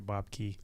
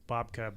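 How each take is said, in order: First: The name is said the American way. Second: The name is said in a non-American way.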